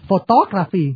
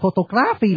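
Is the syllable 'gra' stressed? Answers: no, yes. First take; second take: no; yes. First: The syllable 'gra' is not stressed. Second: The syllable 'gra' is stressed.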